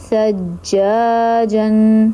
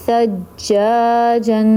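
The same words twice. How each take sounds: The two takes are said the same way.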